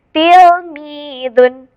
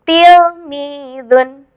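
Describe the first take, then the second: Both takes have the same delivery.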